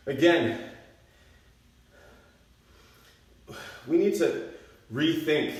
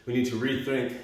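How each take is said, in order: First: NEED to rethink, punched high and loud; emphatic stress. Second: Said in the usual way. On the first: Real, not acted. Coach stresses rethinking exercise.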